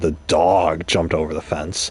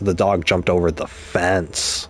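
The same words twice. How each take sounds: First: The stress is on "dog". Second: The stress is on "fence".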